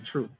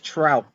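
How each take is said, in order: First: The word ends with a p sound. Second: The word ends with a t sound. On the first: It is said the way the name is meant. The speaker calls it right. "but it's apparently Troop" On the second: It is said the way it is spelled. The speaker calls it wrong. "I know it's Trout"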